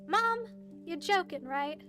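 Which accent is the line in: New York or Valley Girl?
New York. It is spoken in a New York accent. "Now he's a New Yorker kid"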